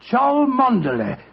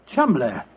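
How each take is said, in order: First: The name is sounded out letter-group by letter-group. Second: The name is said as two short syllables. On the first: This is how the name looks from its spelling. "Chow, Mon, Der, Ley" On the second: This is how the name is really pronounced. "the name Chumley is in no way pronounced the way it is spelt"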